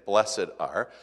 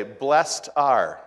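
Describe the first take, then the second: First: "blessed are" with "blessed" in two syllables, bless-ed. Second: "blessed are" with "blessed" as one syllable, blest. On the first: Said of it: "than saying". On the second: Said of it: "tried to purposely say". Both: Shown as a demonstration.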